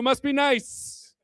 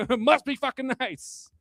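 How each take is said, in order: First: Slow, dry "must be nice"; mock envy, slowed right down; sarcastic drawl. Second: Slow and bitter "Must be fucking nice"; dry envious jab; sarcastic. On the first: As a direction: drag it out with contempt. Running sarcastic catchphrase. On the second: Acted. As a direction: sneer it out slowly. Catchphrase repeated after laugh.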